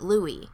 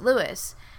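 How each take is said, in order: First: It is pronounced the way the song says it. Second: It is pronounced the local Texan and Midwestern way. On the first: "because in the song it says "Meet me in St. Louis,"" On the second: "at least as us Texans and I guess Midwesterners say, is St. Louis"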